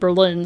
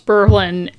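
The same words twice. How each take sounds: First: It is said the standard way. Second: It is said the New Hampshire way. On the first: It names the German capital. "and I say that more than Berlin" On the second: It names the city in New Hampshire. "there's a city in New Hampshire that they pronounce Berlin"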